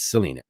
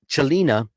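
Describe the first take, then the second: First: The name begins with an 's' sound. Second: The name begins with a 'ch' sound. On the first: It is the name's real pronunciation. The speaker calls it right. "It's Selena" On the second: It is read the Italian way. The speaker calls it wrong. "I just say Chelina because io parlo l'italiano"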